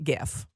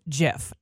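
First: The word starts with a hard G sound. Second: The word starts with a soft J-like sound. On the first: "not GIF" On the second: "it's a soft G pronounced GIF"

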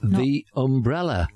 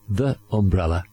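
First: The word 'the' uses its before-vowel pronunciation. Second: The word 'the' uses its before-consonant pronunciation. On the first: The speaker calls it right. "But in front of a vowel" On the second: The speaker calls it wrong. "Not the umbrella"

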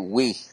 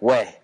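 First: The vowel is a long 'ee' sound. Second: The vowel is an 'ay' sound. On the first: The speaker is a tourist. The speaker calls it wrong. "they don't say we" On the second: The speaker sounds like a local. The speaker calls it right. "They say way. Like, way"

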